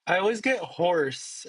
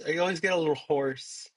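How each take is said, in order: First: Slightly hoarse voice. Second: Slightly hoarse voice; a little raspy throat. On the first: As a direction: talk a little raspy. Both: Real, not acted.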